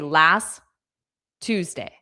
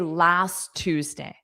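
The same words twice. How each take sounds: First: A pause separates the two words. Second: The words run together without any pause. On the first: The speaker calls it wrong. "If you add pauses, it doesn't sound the same. You can't say" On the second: The speaker calls it right. "So you have to say last Tuesday"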